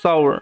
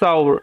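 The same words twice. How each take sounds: No difference in how they are said.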